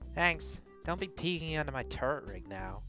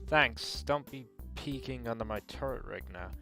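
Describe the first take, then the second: First: It is voiced as a female character. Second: It is voiced as a male character.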